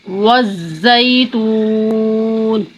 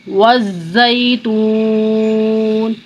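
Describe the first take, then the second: Both takes have the same delivery.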